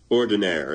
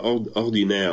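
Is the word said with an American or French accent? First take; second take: American; French. First: It is said with an American pronunciation. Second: It is said with a French pronunciation.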